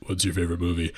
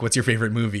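First: Low, deadpan question; imitated deadpan, dropped in pitch; John Benjamin deadpan. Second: Said in the usual way. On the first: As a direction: ask it low and dry, imitating a deadpan comic. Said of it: "like, totally deadpan". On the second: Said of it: "John Benjamin to, like, ask her".

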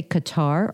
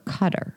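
First: Qatar as "kuh-TAR"; end-stressed pronunciation. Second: Qatar as "CUT-er"; front-stressed pronunciation. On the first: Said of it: "Do you say Qatar or Qatar". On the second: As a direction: make Qatar sound like the surname Cutter. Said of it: "kid named Daryl Cutter". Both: Shown as a demonstration.

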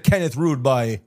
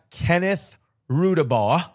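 First: "Rudabaugh" said as ROOD-bye; Rudabaugh ending in "bye". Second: "Rudabaugh" said as ROO-duh-bah; Rudabaugh ending in "bah". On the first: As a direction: end "Rudabaugh" to rhyme with "eye". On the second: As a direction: end "Rudabaugh" on an open "ah". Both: Shown as a demonstration. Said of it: "Or is it Kenneth Rudabaugh?".

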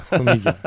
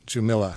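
First: Jumilla said "hoo-MEE-ya"; Spanish pronunciation. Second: Jumilla said "joo-MILL-a", with English j and l; anglicized pronunciation. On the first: Guest restoring the district's name, Spanish-style Jumilla. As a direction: correct it to Jumilla with h and y sounds. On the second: Guest echoing the host's joke, anglicized Jumilla. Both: Shown as a demonstration.

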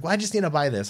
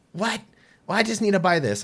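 First: High indignant whine; whiny customer. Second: High, loud indignant whine; whiny customer. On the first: Angry customer insisting, high whine. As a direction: play the offended shopper, higher. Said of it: "She's like". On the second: Customer protesting the ban, high indignant whine. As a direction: play the offended shopper. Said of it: "and she goes". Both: Retold or imitated.

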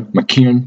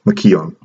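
First: McKeown said quickly, vowels squashed; fast McKeown. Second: McKeown said slowly, stretched out; careful drawn-out McKeown. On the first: Friend corrects the author's name, quick McKeown. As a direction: clip McKeown into two quick beats. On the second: Speaker unsure how to say the Irish name, slow McKeown. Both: Shown as a demonstration. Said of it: "Should be faster".

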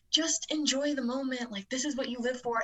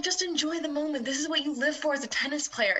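First: Lightly voiced upbeat coach; higher, softer pep-talk coach voice; coach impression. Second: Lightly voiced encouraging coach; halftime pep speech. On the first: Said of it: "the Coach Tyler impression". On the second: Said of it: "Can I get the Coach Tyler impression one more time".

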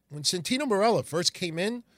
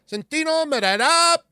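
First: Said in the usual way. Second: Much higher, louder mock Italian accent on the name; cardboard Italian announcer. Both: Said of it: "the accent was cardboard".

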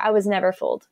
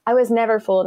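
First: Said in the usual way. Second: "never" lifted and punched for emphasis; emphatic repeat. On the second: Real, not acted. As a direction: land harder on "never".

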